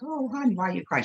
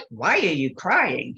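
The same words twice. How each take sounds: First: Tender "oh, hon" sympathy, put on; sweet and sympathetic. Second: Slow, stern questioning; imitating a nun's curt questioning; stern, unsympathetic. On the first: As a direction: imitate a kindly, comforting adult. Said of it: "She wasn't like". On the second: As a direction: demand it like a strict nun. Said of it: "She wasn't like, "Oh, hon".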